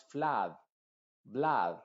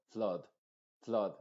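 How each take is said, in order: First: FLOOD and BLOOD as FLAHD, BLAHD; very open A. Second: FLOOD as a short FLUHD; barely open mouth. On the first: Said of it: "A muy abierta". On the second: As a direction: open only slightly on FLOOD. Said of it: "abre un poquito solamente la boca". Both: Shown as a demonstration.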